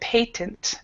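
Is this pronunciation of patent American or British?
British. It is said with a British English pronunciation. "So that's British English"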